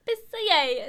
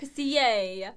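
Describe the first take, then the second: First: "Pissier" higher and louder, Italian flair; Italian accent. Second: "Pissier" said like Italian; mock Italian. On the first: Pretend. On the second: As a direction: roll "Pissier" with Italian flair. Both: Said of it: "It sounds Italian".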